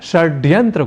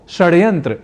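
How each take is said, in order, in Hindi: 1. 'd' ध्वनि एक मूर्धन्य स्पर्श है। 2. 'd' ध्वनि एक मूर्धन्य फ़्लैप है।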